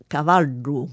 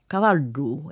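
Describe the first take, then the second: First: The middle consonant is a retroflex D sound. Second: The same.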